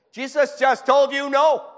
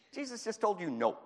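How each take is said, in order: First: Much higher, louder and slower, hammering it home; emphatic shout. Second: Said in the usual way. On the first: Real, not acted. Preacher shouting to the congregation in disbelief, slow emphatic shout.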